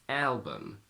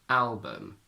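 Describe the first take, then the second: Both takes have the same delivery.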